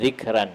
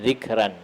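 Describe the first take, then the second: First: The r is light and thin. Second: The r is light and thin.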